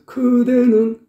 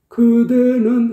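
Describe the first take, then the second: First: The first consonant is harsh like a k. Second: The first consonant is soft and unforced. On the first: The voice is forced with throat pressure. The speaker calls it wrong. "크 발음이 돼버려요" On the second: The voice is produced without throat pressure. The speaker calls it right. "그대는 해야 되는데"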